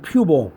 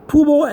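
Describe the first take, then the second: First: Pubal said PYOO-bul; you-sound pronunciation. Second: Pubo said POO-bo, no y sound; oo pronunciation. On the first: Teacher contrasting two pronunciations, PYOO version. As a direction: say pubal with a y glide before the oo. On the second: Teacher contrasting two pronunciations, POO version. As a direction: say pubo with a plain oo. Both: Shown as a demonstration. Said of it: "the way to pronounce this is pubal".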